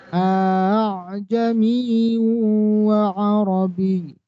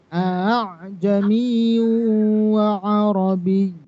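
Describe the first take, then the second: The two takes are said the same way.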